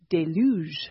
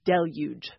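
First: The word ends in a soft zh sound. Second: The word ends in a hard j sound. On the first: This is the original French form. "If you go back to the French, it is déluge, ... that French j at the end" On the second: This is the anglicized form. "but in English, it has become j"

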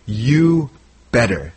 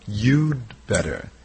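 First: The word 'had' is left out entirely. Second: The word 'had' is reduced to a 'd' sound. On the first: "We get rid of the had" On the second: "we contract it"

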